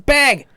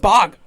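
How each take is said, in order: First: The vowel sounds like the one in 'bag'. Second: The vowel sounds like the one in 'bog'. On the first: This is how the speaker's own group says it. The speaker calls it right. "It's bag" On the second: This is how other people say it. The speaker calls it wrong. "everyone says bog"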